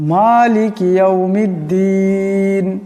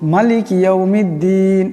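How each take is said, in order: First: The vowel after the M is long. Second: The vowel after the M is short. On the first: The speaker calls it right. "মিমকে একালি পরিমাণ লম্বা করিয়া পড়তে হবে" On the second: The speaker calls it wrong. "আমরা এখানে সর্বসাধারণত একটা ভুল করি, লম্বা করি না"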